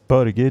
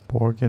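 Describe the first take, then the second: First: The name is said with a Norwegian pronunciation. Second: The name is said with an English pronunciation.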